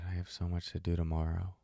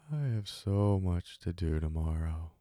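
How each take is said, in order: First: It is said fast and in an agitated way. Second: It is said slowly in a sleepy voice. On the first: The speaker calls it wrong. "this very fast-paced, aggressive, neurotic" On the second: The speaker calls it right. "a sleepy voice"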